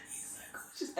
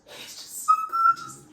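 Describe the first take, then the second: First: Hushed, voiceless gush; swooning whisper. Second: Very high, drawn-out swooning squeal; gushing squeal. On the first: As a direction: whisper it, overcome by the crush. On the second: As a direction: squeal it out, loud and slow. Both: Real, not acted. Gushing over her crush.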